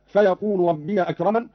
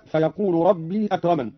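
First: "ربي" as "rabbiya" before "أكرمن"; open yaa. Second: Said in the usual way. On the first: Shown as a demonstration. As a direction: put a short a on the yaa of "ربي". ("ربي" بفتح الياء) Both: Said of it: "قرأ قالون بفتح ياء ربي".

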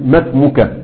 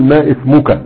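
First: "ما اسمك" run together as masmuka; linked hamzat wasl. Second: "ما اسمك" split as ma ismuka; wrongly sounded hamza. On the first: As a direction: drop the hamza in "ما اسمك", gliding ma straight into smuka. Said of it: "المفروض في وسط الكلام لا تنطق". (وصل "ما اسمك" بإسقاط الهمزة) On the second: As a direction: sound a glottal i at the start of "اسمك" after ma. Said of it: "لا يسوغ أن أقول". (نطق همزة "اسمك" مكسورة بعد "ما") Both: Shown as a demonstration.

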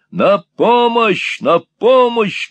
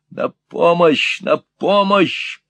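First: Much higher, louder, slow shout for help. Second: Higher, slow call for help; mock call for help. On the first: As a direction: bellow it to scare the old man. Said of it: "крикнул Ральф". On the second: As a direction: threaten to shout for the police. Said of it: "Я позову полицию". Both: A narrator's reading.

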